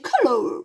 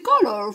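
First: It is said with a British accent. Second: It is said with an American accent. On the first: "nell'inglese scolastico si dice color" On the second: "forse una pronuncia un po' più americana"

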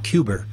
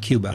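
First: It is said in an imitated Boston accent. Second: It is said in a standard American accent. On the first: This is how a past president said the word. "President Kennedy pronounced it Cuba" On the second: This is how the word is usually said. "not Cuba"

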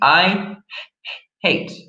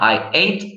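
First: The h sound at the start is pronounced. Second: The h sound at the start is dropped. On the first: The speaker calls it right. "Don't forget your pronunciation of your H" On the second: The speaker calls it wrong. "not I ate"

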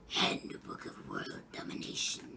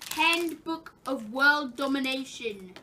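First: It is said imitating a Simpsons character's voice. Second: It is said in the speaker's normal voice.

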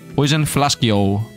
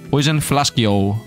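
First: It is said in a put-on foreign accent. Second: It is said in a put-on foreign accent.

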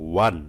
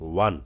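No difference in how they are said.

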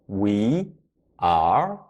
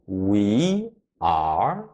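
Both takes have the same delivery.

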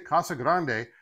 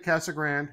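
First: It is said with a Spanish pronunciation. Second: It is said the local Arizona way.

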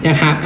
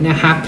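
The two takes are said the same way.

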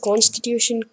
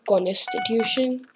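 First: The word is pronounced the standard way. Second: The word is pronounced in a distorted way. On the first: The speaker calls it right. "She also calls constitution" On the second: The speaker calls it wrong. "That just throws you off"

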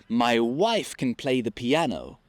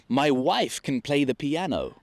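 No difference in how they are said.

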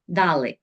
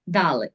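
No difference in how they are said.

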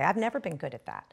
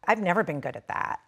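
First: It is said like a matter-of-fact weather report. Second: It is said in a whiny, bratty voice.

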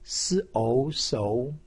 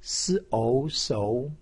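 First: The pitch rises from mid to high. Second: The pitch rises from mid to high.

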